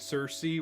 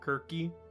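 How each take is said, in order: First: The name begins with a soft S sound. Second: The name begins with a hard K sound. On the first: This is how one player says the name. "the equivalent of Zal saying Cersei" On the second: This is how the ancient Greeks would have said it. "the Greeks would have pronounced it Kirky ... the hard C sound"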